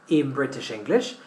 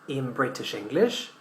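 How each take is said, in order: The two takes are said the same way.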